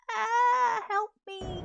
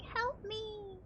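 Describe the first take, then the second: First: High, loud, whiny plea for help; computer crying for help. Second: High, quiet, feeble help me; a tiny whimpered cry from the machine; softer computer plea. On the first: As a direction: play the computer begging for rescue. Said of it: "I think my computer's like". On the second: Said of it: "My computer's like". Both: Pretend.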